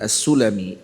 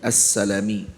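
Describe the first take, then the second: First: The first vowel after S is u. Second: The first vowel after S is a. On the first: The speaker calls it wrong. "bukan dibaca dengan As-Sulami" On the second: The speaker calls it right.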